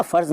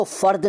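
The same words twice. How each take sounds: First: Said in the usual way. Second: फ़र्द ending on d, not z. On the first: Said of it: "उसको फ़र्द नहीं कहते". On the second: Shown as a demonstration. Teacher showing the rejected form, फ़र्द with d for z. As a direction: end फ़र्द with a d. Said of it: "नहीं कहते".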